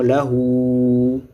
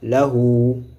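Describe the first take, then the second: First: The final vowel is held for three counts. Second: The final vowel is held for two counts. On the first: The speaker calls it wrong. "Et non" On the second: The speaker calls it right. "Deux temps"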